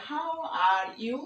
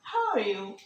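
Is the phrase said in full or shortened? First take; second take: full; shortened. First: Each word is said fully and separately. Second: The words are run together and shortened. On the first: The speaker calls it wrong. "না বলে" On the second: The speaker calls it right. "যতটা সংক্ষেপে বলা যায়"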